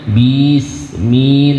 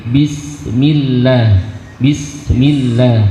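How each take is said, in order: First: Bismillah with the bis dragged long; wrong drawn-out bis. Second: Bismillah gliding straight into the sin; correct Bismillah. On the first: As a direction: drag out "Bis" before the sin. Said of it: "Itu dihindari seperti itu". (Bismillah dengan bis ditarik panjang) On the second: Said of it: "langsung masuk pada huruf sin". (Bismillah langsung masuk huruf sin) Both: Shown as a demonstration.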